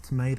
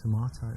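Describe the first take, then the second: First: Tomato as "tuh-MAY-doh"; American-style tomato. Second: Tomato in an English accent, "tuh-MAH-toh"; British tomato with a long "ah". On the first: Offering a word to the date, tomato said "tuh-MAY-doh". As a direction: say tomato with an "ay" in the middle. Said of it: "if you want me to say". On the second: Showing off to the date, tomato in an English accent. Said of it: "English accent". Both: Shown as a demonstration.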